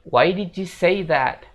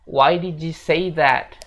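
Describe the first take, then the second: Both takes have the same delivery.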